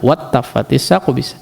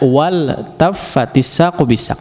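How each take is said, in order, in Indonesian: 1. Bunyi L menyatu dengan T yang dobel. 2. Bunyi L terdengar jelas sebelum T. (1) "Ada yang pernah saya tegur ini, baca"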